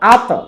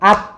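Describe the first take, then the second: First: The final consonant ends with a bouncing release. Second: The final consonant stops without a bouncing release. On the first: "কলকলা হলো আত" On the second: "এটা কলকলা না"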